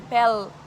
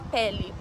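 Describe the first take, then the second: First: The word ends clipped, tongue on the palate. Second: The word ends with a clear final vowel. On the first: This is how people here say it. "a língua vai pro céu da boca, assim, pel" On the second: This is the Brazilian way of saying it. "Mas a gente fala pele"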